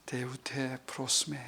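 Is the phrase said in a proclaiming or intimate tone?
intimate. It is said in a soft, intimate tone. It is addressed to one person personally. "나한테 얘기하시면은"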